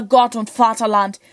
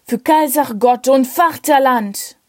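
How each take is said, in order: First: Said in the usual way. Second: Bellowed toast. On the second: Acted. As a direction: shout it out like a soldier's toast. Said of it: "brüllte der Leutnant".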